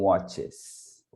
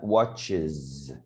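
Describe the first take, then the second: First: The ending has no extra 'iz' syllable. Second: The ending is an extra 'iz' syllable. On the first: The speaker calls it wrong. "não" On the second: The speaker calls it right. "E outros com eyes"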